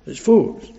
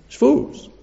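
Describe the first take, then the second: First: Said in the usual way. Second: High exclaim. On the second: Real, not acted.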